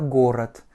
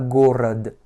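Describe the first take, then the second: First: The second vowel is reduced and the ending is T. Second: The second vowel is a full O and the ending is D. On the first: The speaker calls it right. "il va se prononcer comme un petit A ... va se prononcer comme un T" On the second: The speaker calls it wrong. "et pas"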